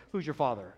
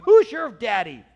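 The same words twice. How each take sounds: First: Said in the usual way. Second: Loud, slow, raised-pitch taunt; mock-confrontational call; taunting challenge. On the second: Acted taunt, then corrected wording.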